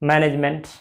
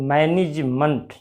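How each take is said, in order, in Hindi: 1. अंतिम शब्दांश में 'ment' का स्वर पूरा है। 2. अंतिम शब्दांश हल्का 'munt' है। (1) "वो लोग बोलते हैं मैनेजमेंट नहीं" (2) "एम ई एन टी जहां लगा वो मंट है।"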